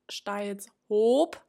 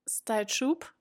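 First: The middle is said as 's' then 'h'. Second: The middle is said as one 'sh' sound. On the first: The speaker calls it right. "der Stadtteil heißt Styles Hoop mit Doppel-O" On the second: The speaker calls it wrong. "es war Style Schub"

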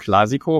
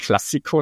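First: The middle s sound is short. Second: The middle s sound is held long. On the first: The speaker calls it right. "sondern Clásico, weil das Ding wird ja tatsächlich mit einem S geschrieben" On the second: The speaker calls it wrong. "nicht Clásico"

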